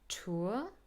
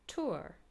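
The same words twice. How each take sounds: First: The vowel is a British diphthong. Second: The vowel is said in American style. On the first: "with the diphthong" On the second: "in American English"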